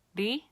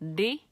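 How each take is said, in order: First: The consonant is a quick light tongue tap. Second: The same.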